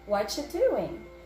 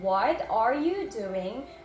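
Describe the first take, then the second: First: The words blur together into whatcha. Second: Every word is pronounced fully and separately. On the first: "We just remove that R. And then we say, whatcha" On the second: "instead of saying"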